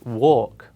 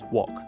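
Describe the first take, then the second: First: The vowel is held long. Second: The vowel is cut short. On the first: The speaker calls it right. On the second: The speaker calls it wrong.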